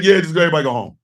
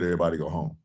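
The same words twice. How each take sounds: First: Mocking Mike Johnson. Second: Dismissive, softer and lower mock order; mocking Mike Johnson. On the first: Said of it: "Mike Johnson was like". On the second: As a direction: brush them off in a low, bored tone. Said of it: "You heard what I said".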